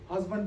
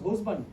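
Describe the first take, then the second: First: The first vowel is a short standard 'uh'. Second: The first vowel is a rounded Yorkshire 'oo'.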